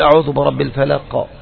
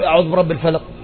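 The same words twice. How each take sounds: First: The final q sound is released with an echo. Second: The final q sound is barely audible. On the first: The speaker calls it right. "ظهر" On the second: The speaker calls it wrong. "الفلق ما حد سمع القاف"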